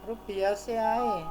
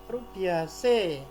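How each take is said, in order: The two takes are said the same way.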